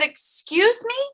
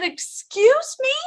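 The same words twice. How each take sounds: First: Much higher, rising, softer; incredulous. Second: Much higher, slow, drawn-out disbelief; stunned disbelief. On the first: Patient repeating question to doctor, incredulous rise. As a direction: ask it in quiet disbelief. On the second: Patient to doctor after bad news, stunned disbelief. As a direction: let the shock stretch the words. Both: Retold or imitated.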